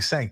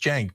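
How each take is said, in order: First: The name begins with an S sound. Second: The name begins with a J sound. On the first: The speaker calls it wrong. "if people say Sank" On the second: The speaker calls it right. "pronounced like a J"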